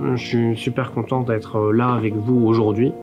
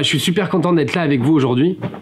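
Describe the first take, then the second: First: It is said flatly, with a hesitation. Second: It is said in a lively, expressive way.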